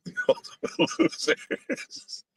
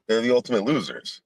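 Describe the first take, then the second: First: Laughing through the words; high, breathy laugh-talk. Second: Said in the usual way. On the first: Real, not acted. Repeats his own line, laughing.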